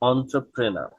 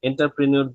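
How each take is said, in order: First: It begins with 'on' and ends in 'ner'. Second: It begins with 'en' and ends in 'nyoor'. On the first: The speaker calls it right. "এদেরকে বলা হচ্ছে অন্ত্রপ্রেনার" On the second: The speaker calls it wrong. "এন্টারপ্রেনিউর বললে এটা কিন্তু উচ্চারণ ভুল"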